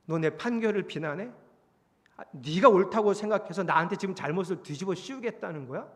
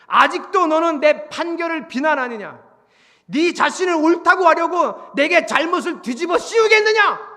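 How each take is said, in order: First: Said in the usual way. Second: Loud, high, formal rebuke; shouted indictment from on high; thundering divine accusation. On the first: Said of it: "이렇게 얘기하세요". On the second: Acted. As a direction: roar it as an affronted God. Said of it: "자, 이러고 얘기하세요".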